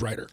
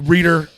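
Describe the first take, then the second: First: The first vowel is pronounced 'eye'. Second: The first vowel is pronounced 'ee'. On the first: The speaker calls it right. "but it is writer" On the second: The speaker calls it wrong. "Reader uh, gets uh, thrown in there a lot"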